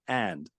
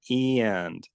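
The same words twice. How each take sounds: First: The vowel is a plain open 'a' sound. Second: The vowel is raised toward an 'ee' sound. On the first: "So I would say and" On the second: "you kind of have a raising to E"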